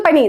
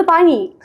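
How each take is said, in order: First: പനി with a short first vowel; their pani. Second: പാനി with a long first aa; our paani. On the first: Mimicking the guest's Hindi, short-vowelled പനി. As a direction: keep പനി short at the start. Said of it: "ഇവര് പറയുന്നത്". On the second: Showing our own way to the guest, long പാനി. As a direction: stretch the opening vowel of പാനി. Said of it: "നമ്മൾ". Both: Shown as a demonstration.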